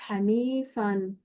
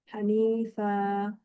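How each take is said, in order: First: "Hanifan" said slowly, final -an nunation fully sounded; "Hanifan" completo, terminando en -an; full Hanifan. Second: "Hanifa" said slowly, the final n dropped, ending on open a; "Hanifa" sin la n final, en pausa; pausal Hanifa. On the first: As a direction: read "Hanifan" as in continuous recitation, ending on a clear -an. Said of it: "porque es Hanifan". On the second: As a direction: stop on "Hanifa" with no nunation, as when pausing. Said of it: "ya no se pronuncia todo así completo". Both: Shown as a demonstration.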